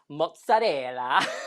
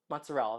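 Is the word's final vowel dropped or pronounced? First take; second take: pronounced; dropped. First: The final vowel is pronounced fully. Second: The final vowel is dropped.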